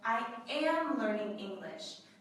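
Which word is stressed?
am. The stress falls on the word am. It confirms that the learning is really happening. "This is a confirmation"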